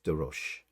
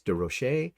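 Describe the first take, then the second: First: The surname is pronounced the plain English way. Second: The surname is pronounced the French way. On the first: "it may be just" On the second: "I want to give it a French pronunciation"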